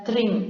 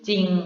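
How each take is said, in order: First: The word begins with a two-consonant cluster. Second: The word begins with one single consonant. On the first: The speaker calls it wrong. "bukan tring" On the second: The speaker calls it right. "dibaca hanya dengan satu bunyi saja"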